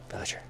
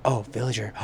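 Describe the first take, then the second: First: Sharp gasp, then a breathy whisper of the word; hushed gasp. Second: Said in the usual way. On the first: Real, not acted. Gamer spotting a villager, awed whisper. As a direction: whisper it in awe as if not to scare it off.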